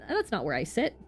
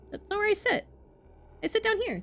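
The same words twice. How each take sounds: First: Said in the usual way. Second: Much higher, fussy character voice; high squeaky voice. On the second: Acted. Streamer re-reads the line as a character, far higher. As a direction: pitch it way up like a prim scholar. Voicing game dialogue, second take.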